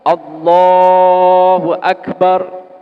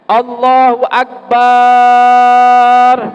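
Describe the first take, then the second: First: The vowel after b in akbar stays short. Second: The vowel after b in akbar is drawn out. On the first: The speaker calls it right. "Jadi lafadznya cukup" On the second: The speaker calls it wrong. "Tidak boleh memanjangkan ba'nya akbar"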